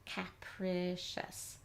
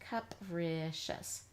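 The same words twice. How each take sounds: First: The first syllable has a short a, like cap. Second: The first syllable has an uh sound. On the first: The speaker calls it wrong. "We know this is cap" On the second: The speaker calls it right. "let's try an uh sound here now"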